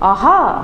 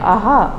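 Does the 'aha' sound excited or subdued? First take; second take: excited; subdued. First: It is said with excited, lively pitch. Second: It is said in a subdued, flatter pitch. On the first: The speaker has just got an idea. "আপনার excitement থাকবেন" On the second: The speaker realizes a mistake was made. "তখন সে হুম এরকম করে বলবে"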